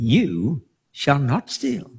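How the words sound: It sounds like a gentle promise.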